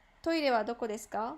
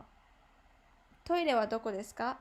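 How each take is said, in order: First: Said in the usual way. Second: どこ said stronger, with more weight; stress on どこ. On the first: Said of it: "when it said, like". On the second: Shown as a demonstration. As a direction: lean hard on どこ in the question. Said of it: "a little bit more, like, stronger".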